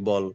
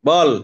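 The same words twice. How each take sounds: First: The word is said softly and quietly. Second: The word is said loudly and forcefully. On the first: "আমি আস্তে বলি" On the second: "আবার জোরে বলি"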